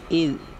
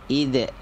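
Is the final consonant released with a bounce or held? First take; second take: held; bounced. First: The final consonant is pressed and held, unreleased. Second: The final consonant is released with a bounce. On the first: The speaker calls it right. "ditekan saja" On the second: The speaker calls it wrong. "jangan dipantulkan, jangan dibaca seperti ini"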